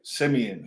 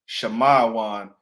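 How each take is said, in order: First: The name is said in its familiar English form. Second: The name is said in its ancient Hebrew form.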